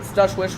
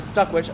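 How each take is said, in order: First: The first syllable ends in a 'sh' sound. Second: The first syllable ends in a 'k' sound. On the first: The speaker calls it wrong. "people joke mispronounce his name as Stushwish" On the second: The speaker calls it right. "it's very clearly Stuckwish"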